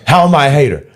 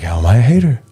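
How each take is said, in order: First: It is said angrily and loudly. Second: It is said calmly and quietly.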